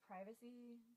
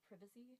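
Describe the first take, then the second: First: It is said with an American pronunciation. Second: It is said with a British pronunciation.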